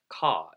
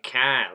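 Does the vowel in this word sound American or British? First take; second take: British; American. First: The vowel is a broad British-sounding ah. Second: The vowel is a flat American-sounding a. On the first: This is the odd way the family says it. "It's actually very British" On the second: This is how an ordinary Boston accent says it. "you would expect a Boston, flawless Boston accent to say"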